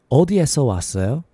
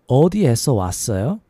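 No difference in how they are said.

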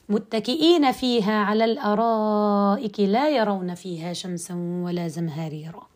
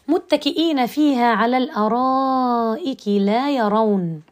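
First: The reciter continues past la yarawn without stopping. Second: The reciter stops right after la yarawn. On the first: They see neither sun nor bitter cold there. The speaker calls it right. "بهذا الشكل، لكن لا أقف على فعل لا يرون" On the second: The people seem to be blind. The speaker calls it wrong. "وأقف ثم أقول لا يرون فيها شمسا ولا زمهريرا"

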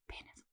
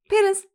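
First: The word is said very quietly. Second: The word is said loudly.

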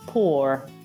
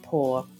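First: The final R is clearly pronounced. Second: The final R is almost silent. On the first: "con una R marcata se è un inglese americano" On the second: "una R impercettibile se è British English, quindi diventerebbe pour"

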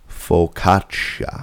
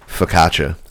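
First: The word is said slowly. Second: The word is said at normal speed.

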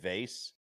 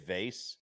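First: The word gets its casual, everyday pronunciation. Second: The word gets its casual, everyday pronunciation.

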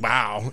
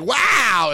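First: It is said with mild, subdued enthusiasm. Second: It is said with big, loud excitement.

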